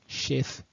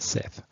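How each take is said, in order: First: The name is said with its Hebrew pronunciation. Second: The name is said with its English pronunciation. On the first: This is the name in the original text. The speaker calls it right. "Sheth is how you pronounce it in Hebrew" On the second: This is the name of a pagan deity. The speaker calls it wrong. "not Seth"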